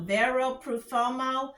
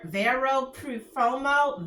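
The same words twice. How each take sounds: First: Vero Profumo repeated at an easy pace, plain American sounds; just say Vero Profumo again, more naturally; quicker repeat. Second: Vero Profumo said slowly, syllable by syllable, in plain English sounds; careful slow reading. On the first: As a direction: Vero Profumo repeated lightly, still no Italian accent. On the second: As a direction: spell out Vero Profumo carefully, no Italian flair. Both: Shown as a demonstration. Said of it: "I don't have that Italian accent".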